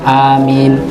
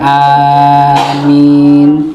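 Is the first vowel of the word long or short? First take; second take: short; long. First: The first vowel is held short. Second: The first vowel is drawn out long. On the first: "dibaca pendek"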